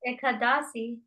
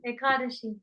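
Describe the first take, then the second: First: Ekadasi with a plain s sound, e-ka-DA-si; wrong pronunciation. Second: Ekadashi with a sh sound, e-KA-da-shi; corrected pronunciation. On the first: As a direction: say Ekadasi with s, not sh. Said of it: "I've been saying Ekadasi". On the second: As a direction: say Ekadashi with sh, not s. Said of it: "But I've been saying Ekadasi". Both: Shown as a demonstration.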